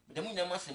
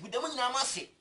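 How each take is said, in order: First: Said in the usual way. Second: "Meda mo nyinaa mo ase" said high and loud, "mo" hit hard; grateful thanks pitched up and pushed; emphatic thanks. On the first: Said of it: "repeated thanks, second take settles". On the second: Real, not acted. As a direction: belt out the thanks with "mo" stressed. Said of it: "repeated thanks, first take raised".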